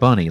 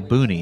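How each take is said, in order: First: The first vowel sounds like in 'bun'. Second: The first vowel sounds like in 'boon'. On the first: "that's the word bunny, like bunny rabbit" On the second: "But you always say Booney"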